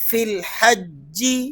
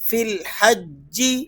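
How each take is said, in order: The two takes are said the same way.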